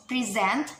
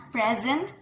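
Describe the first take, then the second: First: "present" stressed on the second syllable, pre-ZENT; verb stress. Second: "present" stressed on the first syllable, PREZ-ent; noun stress. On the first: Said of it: "the verb". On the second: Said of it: "the noun". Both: Shown as a demonstration.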